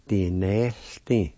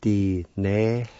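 First: Said in the usual way. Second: "Di-ne-th-tin" slowly with gaps, HL sounded; slow syllables. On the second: Shown as a demonstration. Teacher showing the HL sound, "Di-ne-th-tin" slowly in syllables. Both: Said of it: "like this".

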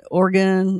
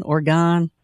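First: Oregon as OR-gun, reduced last vowel; Oregon ending in -gun. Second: Oregon as OR-gone, open last vowel; Oregon ending in -gone. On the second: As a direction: say Oregon with a full "gone" at the end. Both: Shown as a demonstration. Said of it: "is it Oregon or Oregon".

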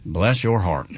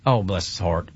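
First: Low, patronizing "Bless your heart," like patting a head; condescending bless your heart. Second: Soft, low, sympathetic "Oh, bless his heart.". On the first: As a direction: talk down to them with mock pity. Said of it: "But when it is like". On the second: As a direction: say it with real pity, quietly. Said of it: "in context". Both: Shown as a demonstration.

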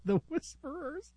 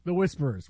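First: Softer, higher hushed voice with a giggle; breathy mock-secretive delivery; playful hushed whisper. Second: Said in the usual way. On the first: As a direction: try out the name as a spooky whisper. Same name repeated in hushed voice.

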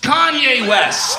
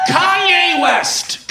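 First: Slow shout ending on a rise; hype shout, rising. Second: Hype shout. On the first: Comic repeating the name, slow rising shout. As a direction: stretch it and lift the end. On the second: Comic hyping the crowd, shouting the name slowly. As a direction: stretch the name out like a hype man. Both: Acted.

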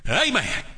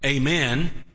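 First: High, punchy Georgian "AY-man"; Georgian accent. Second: Southern "AY-men" with a long AY; Southern accent. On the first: Preacher showing how Georgians get religious, Georgian accent. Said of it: "say it like a Georgian". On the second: Preacher showing the congregation how to say amen, Southern accent. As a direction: say AY-men like a Southerner, lifting at the end. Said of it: "like a Southerner". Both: Shown as a demonstration.

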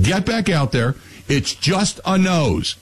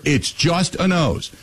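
First: A slow, mildly stern sergeant dad, a little higher; lightly voiced drill sergeant, unmoved; gruff army dad. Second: Slow, mildly stern sergeant father, a little higher; hint of a drill sergeant brushing it off; gruff army dad. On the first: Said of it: "My dad was an Army sergeant". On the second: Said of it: "His words were".

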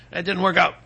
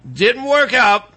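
First: Said in the usual way. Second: "work out" drawn out slowly, pitched higher; emphatic repeat. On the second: Real, not acted.

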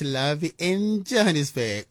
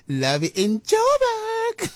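First: Said in the usual way. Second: Very high, very slow, stretched imitation of "Love in Joburg"; imitating the caller. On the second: Host playfully mimicking a caller's sign-off, high and slow. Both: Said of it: "I love the way she said".

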